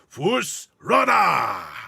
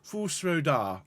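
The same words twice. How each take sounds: First: It is said in a gritty, throaty voice. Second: It is said in a nice, smooth voice.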